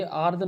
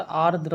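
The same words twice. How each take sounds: First: "आर्द्र" cut to आर्द, without the final r; wrong form. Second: "आर्द्र" with the final dra cluster sounded; correct form. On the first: Teacher quoting the mistaken form to students, final r missing. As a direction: drop the last र of "आर्द्र". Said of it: "ये आर्द्र नहीं होता". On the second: Teacher correcting students, full final cluster. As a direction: sound both r's in "आर्द्र". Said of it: "आर्द्र होता है". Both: Shown as a demonstration.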